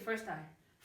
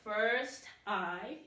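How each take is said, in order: First: The final consonant links into the next vowel. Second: The two words are said separately. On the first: The speaker calls it right. "you just say" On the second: The speaker calls it wrong. "instead of"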